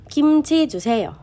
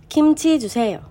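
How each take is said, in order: The two takes are said the same way.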